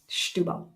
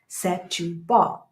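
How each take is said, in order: First: The vowel after the first s is swallowed. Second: The vowel after the first s is fully pronounced. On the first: The speaker calls it right. "they swallow it" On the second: The speaker calls it wrong. "that's how I was saying it"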